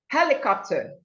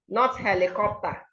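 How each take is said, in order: First: It starts with a strong, forcefully breathed h. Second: It starts without a strongly breathed h. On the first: The speaker calls it right. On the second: The speaker calls it wrong.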